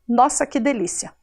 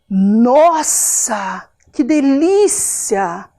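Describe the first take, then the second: First: It is said flatly, without any emotion. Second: It is said with lively, pleased emotion. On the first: It is only a plain statement. "Não tem nenhuma emoção, não tem nenhuma diferença de tom de voz" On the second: It expresses a good, pleasant feeling. "O nossa mostra toda uma emoção"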